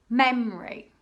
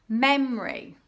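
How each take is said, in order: The two takes are said the same way.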